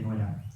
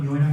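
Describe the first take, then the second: First: Said in the usual way. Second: Ñuera starting with a palatal ñ; pronunciación leonesa de ñuera; Leonese ñuera. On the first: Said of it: "en vez de nuera". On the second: Shown as a demonstration. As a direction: say ñuera with ñ instead of n. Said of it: "ñuera en vez de nuera".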